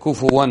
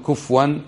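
First: كفوا with the fa voiced on damma, kufuwan; Hafs reading kufuwan. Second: كفوا with silent fa, kufwan; the other reading kufwan. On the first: Teacher models the Hafs reading كفوا as kufuwan. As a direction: say كفوا as ku-fu-wan, fa rounded with u. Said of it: "بضم الفاء". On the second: Teacher shows students the reading كفوا kufwan not to use. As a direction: say كفوا clipped as kuf-wan, no vowel on fa. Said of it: "لا تقل كفوا". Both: Shown as a demonstration.

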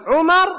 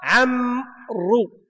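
First: عمر said as Umar, quick, high and loud; contrasting عمر with عمرو; Umar pronounced. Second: عمرو drawn out very slowly as Amr; contrasting عمرو with عمر; Amr pronounced. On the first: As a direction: snap out عمر short and sharp. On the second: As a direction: stretch out عمرو slow and even. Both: Shown as a demonstration. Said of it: "التشكيل هو الذي فرق".

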